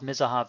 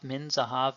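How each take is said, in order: First: Said quickly, with the n merged into the z. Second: Said slowly, with a clear n before zahav.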